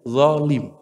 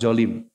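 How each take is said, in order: First: It is said with the standard zo sound. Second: It is said the way Bogor speakers say it. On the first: The speaker calls it right. "Yang benar kan huruf zo" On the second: The speaker calls it wrong. "Kalau orang Bogor, orang Jakarta jolim"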